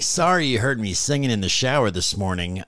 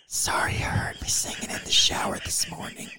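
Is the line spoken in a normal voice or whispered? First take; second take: normal; whispered. First: It is spoken in a normal voice. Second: It is spoken in a whisper.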